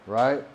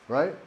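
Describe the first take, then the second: The two takes are said the same way.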